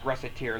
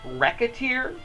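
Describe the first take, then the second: First: The middle consonant is an S sound. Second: The middle consonant is a K sound. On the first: "I think it's pronounced Reciteer" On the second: "a pun in the game that suggests it's actually pronounced Rack- Racketeer"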